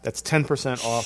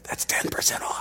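First: It is said at a loud, full volume. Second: It is said quietly, almost hushed. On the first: The speaker calls it wrong. "don't say it so loud" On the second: The speaker calls it right. "There you go"

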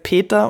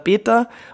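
First: The P is strongly aspirated with breath. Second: The P is soft, almost like a B. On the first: "stark aspiriert, also es ist behaucht" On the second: "es ist ein relativ weiches B"

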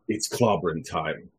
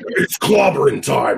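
First: It is said in a calm, understated way. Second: It is said in an intense, over-the-top way.

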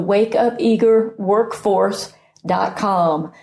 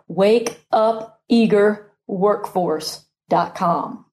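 First: It is said fast, words running together. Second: It is said slowly, words kept apart.

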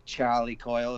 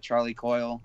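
First: It is said in a Boston accent. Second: It is said in a plain accent.

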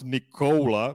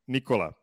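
First: The O vowel is long and gliding. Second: The O vowel is short and pure. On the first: The speaker calls it wrong. "it's not Nikola because there is no O in Serbian" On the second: The speaker calls it right. "it is a short vowel"

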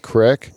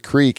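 First: The vowel is a short 'i' sound. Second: The vowel is a long 'ee' sound. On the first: The speaker calls it right. "We say crick because crick is way cooler" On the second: The speaker calls it wrong. "You do not go to the creek"

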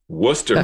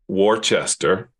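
First: The word is said with two syllables. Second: The word is said with three syllables. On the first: The speaker calls it right. "Worcester, Massachusetts" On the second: The speaker calls it wrong. "not Worcester"

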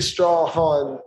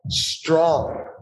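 First: The name is drawn out into two syllables. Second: The name is said as one short syllable. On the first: The speaker calls it wrong. "You don't say Strawhan" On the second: The speaker calls it right. "It's just Strawn"

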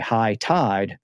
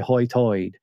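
First: The vowels sound like 'eye', a general American accent. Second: The vowels sound like 'oy', an Outer Banks accent. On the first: "like we would say high tide" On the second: "they say Hoytoid. That's the same way it's pronounced in the West Country of England"

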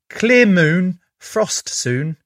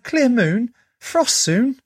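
First: It is said in a plain, flat voice. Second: It is said in an excited, lively voice. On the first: The speaker calls it wrong. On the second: The speaker calls it right.

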